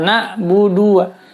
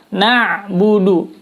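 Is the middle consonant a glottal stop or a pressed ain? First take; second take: glottal stop; pressed ain. First: The middle consonant is a plain glottal stop. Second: The middle consonant is a firm throat ain. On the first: The speaker calls it wrong. "banyak orang membaca" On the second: The speaker calls it right.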